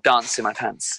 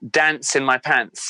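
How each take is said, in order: First: It is said in an English accent. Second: It is said in an American accent.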